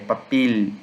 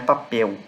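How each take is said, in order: First: The final L is a clear L. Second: The final L is Portuguese-style. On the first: The speaker calls it right. "é papel, ele, esse som assim" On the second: The speaker calls it wrong. "mas não como em português, não é papel"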